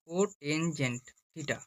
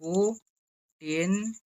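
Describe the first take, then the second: First: Cotangent theta said slowly and softer; slow full word. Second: Cotangent stretched very slowly, co-tan-gent; full word cotangent. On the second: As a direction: draw out cotangent syllable by syllable. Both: Shown as a demonstration. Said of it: "সম্পূর্ণ ভাষায় কি বলা হয়".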